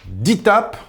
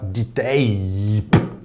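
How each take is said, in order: First: The second part rhymes with 'cap'. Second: The second part rhymes with 'cape'. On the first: The speaker calls it right. "ça se dit D-tape en anglais" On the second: The speaker calls it wrong. "Mais certainement pas D-tape"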